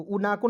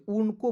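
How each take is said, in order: First: उना को with a long aa after n; wrong reading. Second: उनको with n running straight into ko; correct reading. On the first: Teacher shows students the misreading, उना को with an added aa. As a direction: sound the extra vowel in उना को. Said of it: "तो उना को नहीं पढ़ेंगे". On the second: Teacher corrects students' reading, उनको as two joined syllables. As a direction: say उनको without a vowel after n. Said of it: "उनको पढ़ेंगे". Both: Shown as a demonstration.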